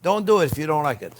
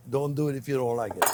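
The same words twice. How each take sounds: First: Said in the usual way. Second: Repeated softly through a laugh. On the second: Real, not acted. Chef teasing viewers about garlic, laughing softly. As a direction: chuckle as you say it again.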